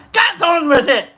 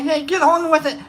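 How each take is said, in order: First: Louder imitated heckle; mock impatient yell. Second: Imitated impatient prodding, held back; mildly nag, imitating a heckler; mock nagging. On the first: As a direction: raise it into a mock holler. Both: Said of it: "you made fun of me".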